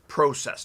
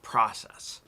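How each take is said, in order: First: It is said with a Canadian accent. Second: It is said with a non-Canadian accent. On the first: The speaker calls it right. "It's process, this is Canadian English" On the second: The speaker calls it wrong. "not process"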